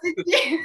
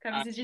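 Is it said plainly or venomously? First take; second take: venomously; plainly. First: It is said with a bit of venom. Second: It is said in a plain, neutral way.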